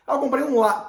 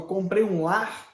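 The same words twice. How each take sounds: First: Higher, brighter ah, like proudly showing off a new home; hammed-up joy at a purchase; mock happy announcement. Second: Said in the usual way. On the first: Shown as a demonstration. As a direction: play up a delighted ah before the words. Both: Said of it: "pô, não dá".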